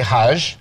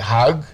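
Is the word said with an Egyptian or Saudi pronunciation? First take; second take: Saudi; Egyptian. First: It has a soft j sound, Saudi style. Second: It has a hard g sound, Egyptian style.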